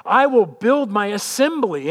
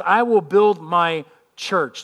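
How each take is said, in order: First: Slow, "I" weighted, louder on "assembly"; reworded emphasis. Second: Slow, deliberate "I will build my church" with "will" weighted; slow emphasis. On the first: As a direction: land on "I" and "assembly" slowly. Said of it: "if you read it this way". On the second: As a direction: drag each word, weight on "will". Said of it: "He says". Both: Shown as a demonstration.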